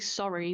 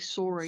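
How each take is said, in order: First: It is said in a general American accent. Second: It is said in a Canadian accent. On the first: "don't say sorry" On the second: "they say sorry"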